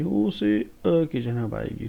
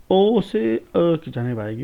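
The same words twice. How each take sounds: First: Said in the usual way. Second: Slow and louder, "ओ" pitched higher and stretched; emphatic demo. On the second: Shown as a demonstration. Teacher stressing how "ओ" moves to "अ", slow and loud. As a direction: lean hard on "ओ" and draw out the line. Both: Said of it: "ठीक है ना".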